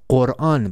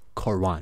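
First: It starts with a deep throat q sound. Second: It starts with a front English k sound. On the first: The speaker calls it right. "It is Quran, but because they cannot pronounce the q sound in English" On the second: The speaker calls it wrong. "but actually the name of this book is not Quran"

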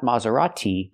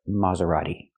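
First: The middle consonant is a clear T sound. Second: The middle consonant is a fast D sound. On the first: The speaker calls it wrong. "the T is not pronounced like T" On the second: The speaker calls it right. "It's pronounced D, a fast D"

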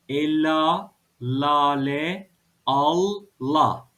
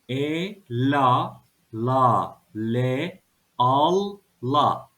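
First: It is read quickly as whole words. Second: It is read slowly, syllable by syllable.

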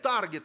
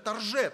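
First: Said the English way, with a hard g. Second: Said the French way, with a soft zh.

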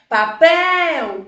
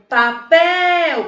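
Both takes have the same delivery.

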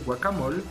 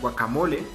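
First: It is said with a French accent. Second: It is said with a Spanish accent. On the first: "aquí lo pronunciamos más a la francesa" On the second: "El guacamole"

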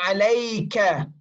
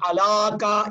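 First: The middle vowel is the diphthong 'ay'. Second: The middle vowel is a plain long 'a'. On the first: The speaker calls it right. "ala becomes alay with a ya" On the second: The speaker calls it wrong. "Not alaka"

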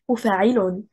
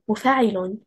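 First: Stress falls on the mim and ayn syllables. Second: Stress falls on the fa syllable only.

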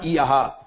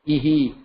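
First: The h is followed by an 'a' vowel. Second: The h is followed by an 'i' vowel. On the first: The speaker calls it wrong. "not iaha" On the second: The speaker calls it right. "So ihi"

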